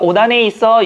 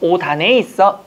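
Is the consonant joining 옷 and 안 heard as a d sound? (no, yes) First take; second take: no; yes. First: The linking consonant is not a d sound. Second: The linking consonant is a d sound. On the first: The speaker calls it wrong. "이러잖아요" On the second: The speaker calls it right. "정확한 오단에 있어. 연음을 시키셔야 됩니다"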